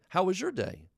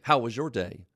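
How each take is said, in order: First: The tone is warm and friendly. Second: The tone is harsh and abrasive.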